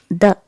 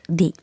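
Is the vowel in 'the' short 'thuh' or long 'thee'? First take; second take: thuh; thee. First: The vowel is short, like thuh. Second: The vowel is long, like thee. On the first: The speaker calls it right. "You will pronounce it as the" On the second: The speaker calls it wrong. "not the"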